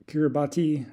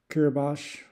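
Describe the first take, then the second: First: "Kiribati" said as spelt, ending in "BAH-tee"; spelling pronunciation. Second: "Kiribati" said as "KEER-ih-bahsh", no final ee; corrected pronunciation. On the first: Traveler reading Kiribati off the list as spelt, ending "-tee". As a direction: sound out all four syllables of "Kiribati", keir-ih-BAH-tee. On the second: Traveler trying the believed correct Kiribati, ending "-bash" instead of "-tee". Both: Shown as a demonstration. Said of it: "I believe it's pronounced".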